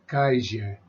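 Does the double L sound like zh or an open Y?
zh. The double L is said with a zh sound. It is how some places in South America say it. "they give this eye more of a zh, zh sound"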